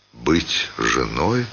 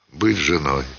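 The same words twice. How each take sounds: First: «Быть женой?» медленно, тихо, с подъёмом на «женой»; медленно, тихо, вопросительно тянуть «женой»; вопрос с подъёмом. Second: «Быть женой.» ударение на «быть», падающий тон; горько утвердить, опустить голос на «женой»; утвердительно с падением. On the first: («Быть женой?» тихо, медленно, с вопросительным подъёмом) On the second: («Быть женой.» с ударением на «Быть» и падением) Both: A narrator's reading. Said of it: "мысль героини".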